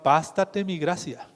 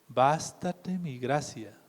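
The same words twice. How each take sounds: First: Said in the usual way. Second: Slow and softer, "Bástate mi gracia" laid down gently; slow soft divine answer. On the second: Acted. Preacher giving the Lord's reply to the suffering, slow and soft. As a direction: let "Bástate mi gracia" settle quietly like a final word.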